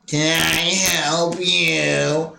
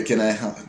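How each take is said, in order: First: Higher, very slow, sarcastic; mock dismissive clerk. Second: Quick, friendly, genuinely offering; just plainly willing to help; sincere eager helper. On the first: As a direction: stretch it out as a cold brush-off. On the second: Retold or imitated.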